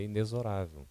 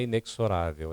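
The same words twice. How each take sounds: First: "inexorável" said with a z, correct; "inexorável" pronounced with z, the correct way. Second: "inexorável" with a ks sound, wrong; "inexorável" pronounced with ks, marked wrong. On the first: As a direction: say "inexorável" as inezo-rável. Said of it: "é inexorável". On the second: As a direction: say "inexorável" as inekso-rável. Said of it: "Não é inexorável". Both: Shown as a demonstration.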